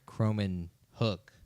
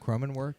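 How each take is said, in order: First: The name ends with a 'hook' sound. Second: The name ends with a 'work' sound. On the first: The speaker calls it right. "I think that's right" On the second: The speaker calls it wrong. "I just mispronounced"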